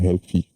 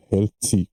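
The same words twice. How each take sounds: First: Second try at "healthy", French-accented; "healthy" said as an alternative, unsure pronunciation; accented English "healthy". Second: "healthy" with a French-speaker's accent; first attempt at "healthy", th hardened towards t; accented English "healthy". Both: Real, not acted. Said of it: "excusez-moi pour mon accent".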